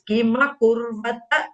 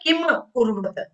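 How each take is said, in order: First: The first word ends in a full ma sound. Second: The first word ends in a clipped m. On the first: The speaker calls it right. "It is Kima Kurvata. Full you have to say" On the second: The speaker calls it wrong. "It is not Kim Kurvata"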